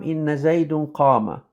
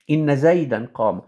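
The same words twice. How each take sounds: First: "زيد" with an -un ending after "إن"; mistaken case ending. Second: "زيدا" with an -an ending after "إن"; corrected case ending. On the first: Teacher answers a question in Arabic, slipping into -un on "زيد". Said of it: "not زيد". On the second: Teacher corrects the ending after inna, -an on "زيدا". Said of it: "it's زيدا". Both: Shown as a demonstration.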